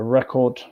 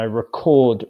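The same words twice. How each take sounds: First: The stress is on the first syllable. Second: The stress is on the second syllable. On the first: It is a noun, a thing you listen to. "Noun, syllable one stress" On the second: It is a verb, the act of capturing sound. "syllable two stress, verb"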